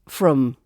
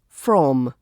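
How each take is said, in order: First: The vowel is reduced and quickly pronounced. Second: The vowel is full and clearly pronounced.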